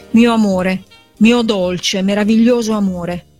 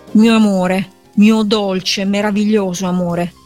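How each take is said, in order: The two takes are said the same way.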